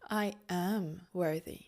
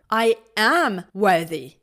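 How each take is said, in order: First: It is said calmly and deeply, from the belly. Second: It is said with fiery, intense energy. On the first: "more calm, more from the belly" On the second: "Maybe more fiery"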